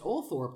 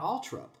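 First: The name is said in a longer, spelled-out form. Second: The name is said in a shorter, reduced form. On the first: This is how it is said in the United States. The speaker calls it right. "in the United States is probably pronounced Althorp" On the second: This is not how it is said in the United States. The speaker calls it wrong. "not Altrup"

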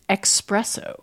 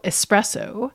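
First: A k sound comes before the s. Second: No k sound comes before the s. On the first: "Another pronunciation that people criticize" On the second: "The coffee is spelled E-S-P-R-E-S-S-O"

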